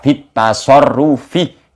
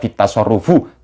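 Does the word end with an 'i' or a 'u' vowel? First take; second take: i; u. First: The word ends with an 'i' vowel. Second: The word ends with a 'u' vowel. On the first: The speaker calls it right. "tapi dibaca fitasorufi karena kemasukan huruf jer" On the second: The speaker calls it wrong. "jangan dibaca fitasorufu"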